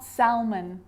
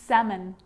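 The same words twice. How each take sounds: First: The L sound is pronounced. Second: The L sound is silent. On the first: The speaker calls it wrong. "not salmon" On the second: The speaker calls it right. "Then it's silent"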